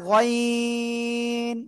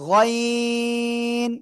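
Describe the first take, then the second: First: The vowel is drawn out long. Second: The vowel is drawn out long.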